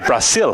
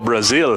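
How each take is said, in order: First: The middle consonant is a hissing S sound. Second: The middle consonant is a buzzing Z sound. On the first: This is how local speakers say it. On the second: This is how English speakers say it.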